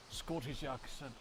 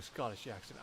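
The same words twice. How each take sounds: First: Slow trial of a Scottish accent; tentative, drawn-out Scottish accent. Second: Said in the usual way. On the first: Shown as a demonstration. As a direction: feel out the Scottish accent slowly. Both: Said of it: "how do I do a Scottish accent".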